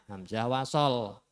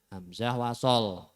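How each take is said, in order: No difference in how they are said.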